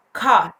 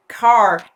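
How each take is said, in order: First: "car" in a British accent with the final R dropped, like "cah". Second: "car" in an American accent with the final R fully sounded. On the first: Teacher switching to a British "car" to show the silent R. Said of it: "Ahora con acento británico". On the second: Teacher showing learners an American "car" with the R pronounced. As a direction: roll into a strong American R on "car". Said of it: "hablar inglés con acento americano". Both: Shown as a demonstration.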